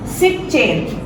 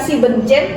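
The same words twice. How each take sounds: First: The word drops the syllable 'en' after 'sieb'. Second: The word keeps the syllable 'en' after 'sieb'. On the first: The speaker calls it right. "N-nya dihilangkan" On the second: The speaker calls it wrong. "bukan siebzehn"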